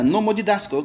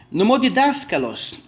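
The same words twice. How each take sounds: First: Said in the usual way. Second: Nomodidáskalos said slowly, every syllable spelled out; teacher drawing out Nomodidáskalos slowly; slow syllable-by-syllable demo. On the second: Shown as a demonstration. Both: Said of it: "Olha, nomodidáskalos".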